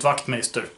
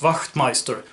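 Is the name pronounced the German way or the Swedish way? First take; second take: Swedish; German. First: The name is said with Swedish pronunciation. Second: The name is said with German pronunciation. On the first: This is how the bearer of the name said it. "he would always pronounce it Wachtmeister, so let's go with that" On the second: This follows the name's original language. "his last name was originally German, so I guess it should be pronounced Wachtmeister"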